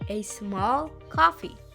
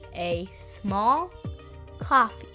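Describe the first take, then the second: First: It is said at normal speed. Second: It is said slowly.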